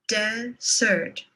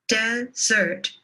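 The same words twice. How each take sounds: The two takes are said the same way.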